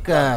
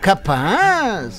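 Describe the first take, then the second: First: It sounds like a flat denial, pitch pulled down. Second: It sounds doubtful and disbelieving, like asking seriously.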